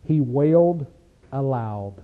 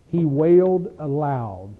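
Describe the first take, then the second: First: Said in the usual way. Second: "He wailed aloud" drawn out slowly, leaning on "wailed"; slow stress on wailed aloud. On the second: Shown as a demonstration. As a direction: spell out "wailed aloud" word by word for weight. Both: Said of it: "You know what the language said?".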